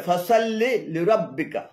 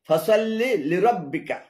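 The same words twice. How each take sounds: No difference in how they are said.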